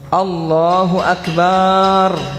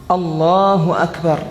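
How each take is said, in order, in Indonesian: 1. Vokal setelah b di Akbar yang dipanjangkan. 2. Tidak ada vokal yang dipanjangkan melebihi panjang normal. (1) "Atau Akbar dia kasih panjang, ba-nya di Akbar" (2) "Tidak merubah makna"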